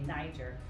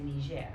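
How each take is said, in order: First: It is pronounced with an English pronunciation. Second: It is pronounced with a French pronunciation. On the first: "we say it in English, we say Niger" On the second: "in French they say Niger"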